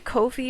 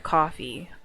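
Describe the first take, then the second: First: It is said unlike the word coffee. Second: It is said just like the word coffee. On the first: The speaker calls it wrong. "I keep calling it Ko-fi" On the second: The speaker calls it right. "it's supposed to sound like coffee"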